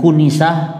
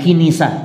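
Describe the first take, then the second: First: The first syllable has the vowel u. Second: The first syllable has the vowel i. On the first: "bukan kunisah" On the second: "bukan kinisah"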